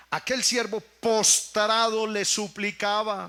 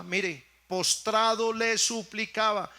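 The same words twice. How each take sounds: First: Aquel siervo postrado, dicho despacio; lento y enfático. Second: Said in the usual way. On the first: Shown as a demonstration. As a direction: recalca postrado alargándolo. (lectura lenta y solemne)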